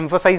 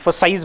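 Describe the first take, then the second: First: The word is said plainly, without extra weight. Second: The word is said with strong, weighty emphasis.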